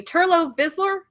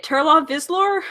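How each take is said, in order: First: "Turlo Vislor" with a long o closing the first name; checking the corrected "Turlo", higher pitch; corrected pronunciation. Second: Slow, tentative try at "Turla Vislor"; "Turla Vislor" sounded out slowly as a question; unsure pronunciation. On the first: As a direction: say "Turlo" with an "oh" ending. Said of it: "Yeah, Turlo". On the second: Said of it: "I'm not sure how to say it". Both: Real, not acted.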